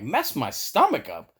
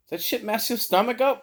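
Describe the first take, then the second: First: Mock-indignant repeat, pitch jumping within the phrase; retold "are you kidding me" echo; incredulous echo. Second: High-pitched imitation of a coworker asking; retold query in a raised voice; coworker's question. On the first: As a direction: throw the question back in disbelief. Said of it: "I'm like". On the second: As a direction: ask it high, with a questioning lilt. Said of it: "One of my other coworkers was like".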